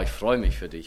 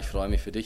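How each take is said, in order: First: It sounds warm and genuinely enthusiastic. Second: It sounds hesitant and half-hearted. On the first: The joy for the other person is sincere. The speaker calls it right. "Dass wir dem anderen das echt mal" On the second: The speaker secretly wants the thing for themselves. The speaker calls it wrong. "Und dass das nicht so, naja"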